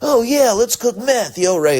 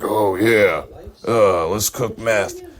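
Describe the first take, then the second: First: Jesse's voice is imitated as high. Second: Jesse's voice is imitated as deep.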